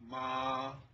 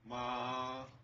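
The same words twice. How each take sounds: First: The pitch stays high and level. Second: The pitch stays high and level.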